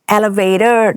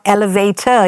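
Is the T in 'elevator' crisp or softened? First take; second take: softened; crisp. First: The T is softened, American style. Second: The T is pronounced crisply and clearly. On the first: This is how Americans say it. "the way they said elevator" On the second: This is how the speaker originally said it. "I pronounced my T's"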